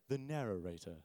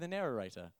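First: It is said in a deep narrator voice. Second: It is said in his normal voice.

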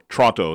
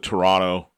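First: Toronto is pronounced the way locals say it. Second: Toronto is pronounced in the ordinary, standard way.

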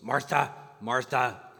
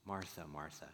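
First: It is said in a scolding tone. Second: It is said in a tender tone.

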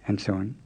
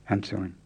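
No difference in how they are said.

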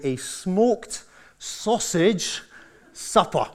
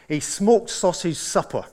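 First: The phrase is said very slowly. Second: The phrase is said at a normal pace.

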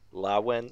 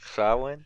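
First: The word begins with a plain l sound. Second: The word begins with a breathy ch-like sound. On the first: "If I were to pronounce that like that was Spanish" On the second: "that was actually pretty close"

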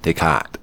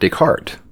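First: The R sound is faint and barely there. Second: The R sound is clearly pronounced. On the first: This follows an online pronunciation guide. "kind of like that English accent, no R, but there is kind of an R sort of a sound" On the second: This is the commonly heard pronunciation. "I've always heard Descartes in all my philosophy classes"

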